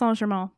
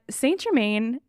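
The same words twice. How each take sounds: First: The name is said with French sounds. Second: The name is said with English sounds. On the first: "It is pronounced Saint Germain. I'm not going to do that the entire episode" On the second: "that's how I'm going to pronounce it"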